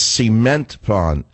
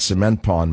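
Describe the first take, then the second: First: "cement" as SEE-ment, drawn out slowly; hillbilly pronunciation. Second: "cement" as suh-MENT, short first syllable; standard pronunciation. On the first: Radio host mocking her hillbilly coaching, "cement" said slowly as SEE-ment. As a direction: stretch "cement" with a long ee in the first syllable. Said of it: "watch every episode of the Beverly Hillbillies". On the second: Radio host giving the standard form, "cement" as suh-MENT. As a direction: say "cement" with a reduced first vowel, stress on MENT. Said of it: "not cement pond". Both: Shown as a demonstration.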